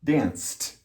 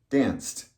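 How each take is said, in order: First: "Danced" said as danst, final T; T ending. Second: Said in the usual way. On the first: Shown as a demonstration. Teacher modelling "Danced" with a final T. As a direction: clip "Danced" to end in T. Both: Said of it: "So it has the same rule".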